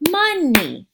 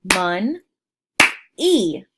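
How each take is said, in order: First: Said in the usual way. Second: "Mon-e" said slowly in two loud beats; split into syllables. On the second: Shown as a demonstration. Teacher clapping "Mon-e" out for young learners. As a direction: clap "Mon-e" out in two parts. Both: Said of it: "Let's clap that out".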